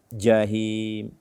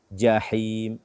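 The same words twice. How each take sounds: No difference in how they are said.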